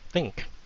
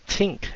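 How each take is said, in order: First: The word begins with a soft TH sound. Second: The word begins with a hard T sound. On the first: The speaker calls it right. "instead of think" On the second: The speaker calls it wrong. "They would say tink"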